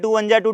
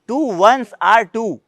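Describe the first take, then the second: First: The middle words are slurred into 'one ja'. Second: Each word, 'ones are', is said clearly apart. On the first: It is repeated by rote without understanding. The speaker calls it wrong. "यही बोलते हैं, वो गलत है।" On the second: It is said with its real meaning understood. The speaker calls it right. "ये टू वंस आर टू होता है।"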